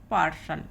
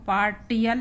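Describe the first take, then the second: First: The middle consonant is an 'sh' sound. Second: The middle consonant is a 't' sound. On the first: The speaker calls it right. "हम पढ़ेंगे पार्सल" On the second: The speaker calls it wrong. "इसको पार्टियल नहीं पढ़ेंगे"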